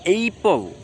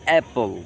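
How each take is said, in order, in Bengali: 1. প্রথম স্বরধ্বনিটি একটি gliding 'ay' ধ্বনি। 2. প্রথম স্বরধ্বনিটি 'cat' শব্দের খোলা 'a'। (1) "তার মানে কি এইপল? No" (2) "it's অ্যাপল"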